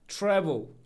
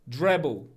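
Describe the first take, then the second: First: The T is said as a clear English T. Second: The T is voiced like a D, Italian-style.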